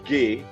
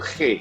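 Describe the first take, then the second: First: The letter is said with a German sound. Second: The letter is said with a Dutch sound. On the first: "di Jerman G" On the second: "Belanda itu G"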